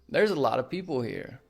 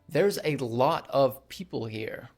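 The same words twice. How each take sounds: First: 'A lot of' is reduced to 'a lotta'. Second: 'A lot of' is said fully, 'of' clear. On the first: "a lot of becomes a lotta" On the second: "Instead of saying"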